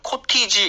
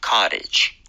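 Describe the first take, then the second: First: The middle t is a hard, clear t. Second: The middle t is a soft flap. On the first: The speaker calls it wrong. "코티지 이렇게 하지 마시고요" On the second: The speaker calls it right. "중간에 T가 플랩이 나면서 부드러워지니까요"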